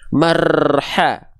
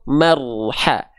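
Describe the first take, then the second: First: The r is trilled long and heavily. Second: The r is trilled only briefly and lightly. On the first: The speaker calls it wrong. "nggak begitu" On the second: The speaker calls it right. "Getarannya sedikit saja"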